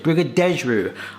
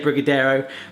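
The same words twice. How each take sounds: First: It is said with a Portuguese-style pronunciation. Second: It is said with an English-style pronunciation. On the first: This is the proper pronunciation of the name. "that's how you pronounce it" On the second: This is the habitual, easier pronunciation. "My mind just wants to say"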